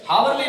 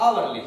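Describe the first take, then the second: First: "हावरली" with the H sounded at the start; wrong pronunciation. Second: "आवरली" starting straight on the vowel, no H; correct silent H. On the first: Teacher showing students the silent-letter mistake, "हावरली" with H pronounced. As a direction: say "हावरली", voicing a clear H before the vowel. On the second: Teacher correcting students' pronunciation, "आवरली" with a silent H. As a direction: say "आवरली" with the H left silent, firmly. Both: Shown as a demonstration. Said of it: "हावरली नहीं बोले जाएगा".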